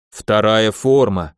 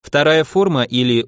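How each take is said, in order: First: Slow, gleeful booming voice; happy booming rumble. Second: Said in the usual way. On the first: A narrator's reading. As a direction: drag it out in a slow, happy boom. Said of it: "обрадованно прогудел Кромбер".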